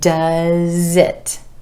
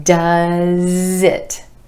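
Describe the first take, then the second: First: The z sound links into the next word. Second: The same.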